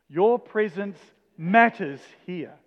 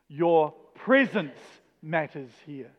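First: The stress falls on the word 'matters'. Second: The stress falls on the word 'presence'. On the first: "each time we're going to put the emphasis on the next word" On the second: "each time we're going to put the emphasis on the next word"

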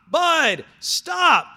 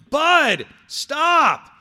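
The two takes are said the same way.

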